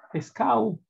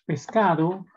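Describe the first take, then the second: First: "pescao": the d is dropped, "-ado" becomes "-ao". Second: "pescado" with the d between vowels fully said; full pronunciation. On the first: Teacher imitating a dialect for students: dropped d, casual "pescao". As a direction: say "pescao" casually, higher, without the d. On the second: Teacher to students, contrasting dialect forms: full "pescado". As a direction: say "pescado" slowly, every sound in place. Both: Shown as a demonstration. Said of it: "los dialectos".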